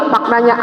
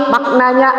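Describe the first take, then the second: No difference in how they are said.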